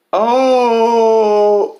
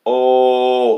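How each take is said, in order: First: High, loud mock crying wail. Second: Loud, drawn-out mock wail. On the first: Mocking a Facebook friend's grief post with a loud wail. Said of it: "she types". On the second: Mocking a friend's all-caps grief post with a long loud oh. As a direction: drag the oh out loudly. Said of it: "all caps".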